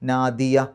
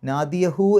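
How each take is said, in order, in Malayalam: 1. hu അക്ഷരമില്ലാതെ വാക്ക് പെട്ടെന്ന് അവസാനിക്കുന്നു. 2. വാക്ക് പൂർണ്ണമായ hu അക്ഷരത്തോടെ അവസാനിക്കുന്നു. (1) "ആ ഹാഇന് സുക്കൂനിട്ട് നിർത്തുക" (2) "നാദിയഹു എന്നാണ് അവിടെ ശരിക്ക്"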